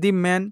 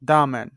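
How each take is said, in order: First: 'The' is said with a long ee vowel. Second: 'The' is said with a short uh vowel. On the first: The speaker calls it wrong. "দি man বলা যাবে না" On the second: The speaker calls it right. "এখানে কি বলবো আমরা? দা man"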